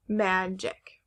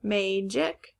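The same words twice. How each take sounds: First: "magic" as MAD-jik; short A. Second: "Magic" as MAY-jik, rising; long A. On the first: Teacher repeating the options to compare, "magic" as mad-jik. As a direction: say "magic" with the a of cat. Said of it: "Now, is it". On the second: Teacher repeating the options to compare, "Magic" as may-jik. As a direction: say "Magic" with the a of day. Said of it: "if the A is at the end". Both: Shown as a demonstration.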